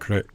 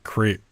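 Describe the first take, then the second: First: The vowel is a short, French-style e. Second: The vowel is a long ee sound. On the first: "It sounds French, so it would be more like" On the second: "I'm pretty sure it's pronounced creep"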